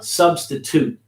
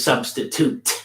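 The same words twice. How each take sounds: First: The last syllable is softened, not a full 'toot'. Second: The last syllable is a full, hard 'toot'. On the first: The speaker calls it right. "the way it's pronounced is different" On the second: The speaker calls it wrong. "nobody says substitute"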